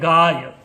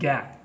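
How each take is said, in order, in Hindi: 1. इसमें लंबा 'aa' स्वर है, उसके बाद 'y'। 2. इसमें छोटा 'ai' द्विस्वर ध्वनि है। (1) "हिंदी में होता है गाय" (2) "एक विशेष प्रदेश में ... वो gai होता है"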